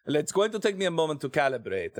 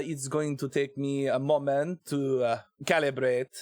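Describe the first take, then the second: First: Put-on French accent slipping into Italian; a wobbly French-turned-Italian accent; botched French accent. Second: Put-on hesitant French accent, feeling for the sounds; tentative mock-French accent; terrible French accent. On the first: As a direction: try French but land on Italian. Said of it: "that's not French, that's Italian". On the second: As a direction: calibrate a bad French accent. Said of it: "my terrible French accent".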